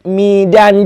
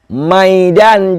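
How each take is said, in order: First: The first vowel is an 'i' sound. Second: The first vowel is an 'a' sound. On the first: "dengan kasrah mim" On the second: "dibaca dengan patah"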